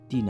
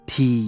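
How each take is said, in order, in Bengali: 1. প্রথম ব্যঞ্জনে বাতাসের কোনো ফুঁ নেই। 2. প্রথম ব্যঞ্জনে বাতাসের জোরালো ফুঁ আছে। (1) "টি না" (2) "টি এর উচ্চারণ হবে ঠি"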